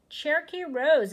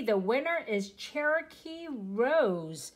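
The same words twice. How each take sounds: First: Louder, higher, thrilled; excited announcement. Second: Said in the usual way. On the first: Real, not acted. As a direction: call the name out with glee. Repeating the winner's name.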